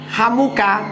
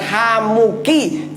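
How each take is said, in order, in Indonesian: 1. Vokal akhirnya bunyi 'a'. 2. Vokal akhirnya bunyi 'i'. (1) "Ini kalau membacanya kok Hamuka" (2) "yang benar Hamuki"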